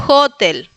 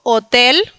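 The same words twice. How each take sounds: First: "hotel" with h like Spanish j, stress on HO; Polish pronunciation. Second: "hotel" with silent h, stress on TEL; Spanish pronunciation. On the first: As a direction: say "hotel" as JÓ-tel. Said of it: "pero en polaco es". ("hotel" en polaco, jota y acento inicial) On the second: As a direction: say "hotel" as o-TÉL. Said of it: "nosotros diríamos en este caso hotel". ("hotel" a la española, hache muda) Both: Shown as a demonstration.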